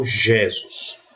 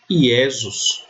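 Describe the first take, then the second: First: "Jesus" as ZHEH-zus, stress on first syllable; the wrong Latin reading, "Jesus" starting zh. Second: "Iesus" as ee-EH-zus, starting on a vowel; slow Latin "Iesus", no zh sound. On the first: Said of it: "não Jesus". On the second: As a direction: say "Iesus" with an i glide for j. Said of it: "O J eu sempre pronuncio I". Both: Shown as a demonstration.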